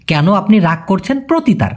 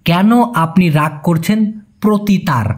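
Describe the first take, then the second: First: Said in the usual way. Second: Slow, each word of কেন আপনি রাগ করছেন প্রতি তার set apart. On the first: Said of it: "এভাবেই লেখা লাগে ভাই". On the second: Shown as a demonstration. Teacher to Bengali learners, slow word-by-word gloss. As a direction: lay out the Malay word order slowly. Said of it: "এই জন্য বলতে হবে".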